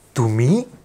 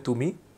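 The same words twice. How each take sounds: First: It is said in a surprised tone. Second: It is said in a plain, neutral tone.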